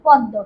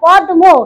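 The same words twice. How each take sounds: First: The cluster is pronounced as a doubled D. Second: The cluster is pronounced with a D then M. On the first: The speaker calls it right. "আমরা বলি পদয় দয়" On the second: The speaker calls it wrong. "পদ্ম বলি না, এই উচ্চারণ কিন্তু আমরা করি না"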